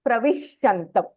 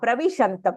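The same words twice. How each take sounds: First: The middle sh sound is doubled with extra ish. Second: The middle sh sound is said once, single. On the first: The speaker calls it wrong. "You don't say it as Pravishantam. There is no ish, extra ish in that" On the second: The speaker calls it right. "That's it"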